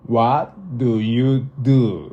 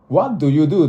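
First: The question is said slowly and deliberately. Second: The question is said at a normal speed.

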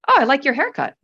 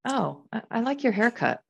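First: The tone sounds sincere and pleased. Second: The tone sounds insincere and unimpressed. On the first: The speaker likes the haircut. "and the second one I do" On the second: The speaker does not like the haircut. "you can tell in the first one, I don't like the haircut"

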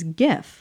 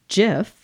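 First: The word begins with a hard G sound. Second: The word begins with a J sound. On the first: This is the most common pronunciation. "the most common pronunciation is GIF" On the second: This is the creator's pronunciation. "like the peanut butter"

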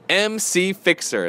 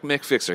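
First: MC is spoken as two separate letters. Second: MC is spoken as one word, Mick. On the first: The speaker calls it right. "That's right" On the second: The speaker calls it wrong. "not Mick Fixer"

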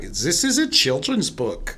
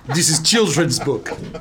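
First: It is said in a German accent. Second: It is said in a Russian accent. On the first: The speaker calls it wrong. "Sorry, that was a German accent" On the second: The speaker calls it right. "In Russia, we give this book to dog"

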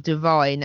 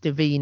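First: The name ends with a 'vine' sound. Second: The name ends with a 'veen' sound.

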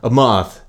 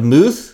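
First: The word is said in a plain English accent. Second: The word is said in an exaggerated French accent.

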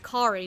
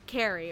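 First: The name rhymes with Ferrari. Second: The name does not rhyme with Ferrari. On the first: The speaker calls it right. "it's Carrie, Just think of Kari like Ferrari" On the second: The speaker calls it wrong. "not Carrie"

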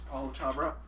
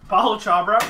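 First: The name is said at normal volume. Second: The name is said more loudly.

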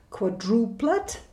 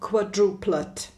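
First: The stress is on the second syllable. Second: The stress is on the first syllable. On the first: "tam je přízvuk na druhé slabice" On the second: "krátce, tam je přízvuk na začátku"

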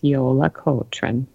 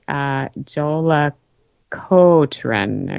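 First: The word begins with a Y sound. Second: The word begins with a J sound.

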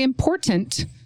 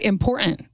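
First: Every sound in the word is fully pronounced. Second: Some sounds in the word are dropped. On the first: The speaker calls it right. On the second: The speaker calls it wrong.

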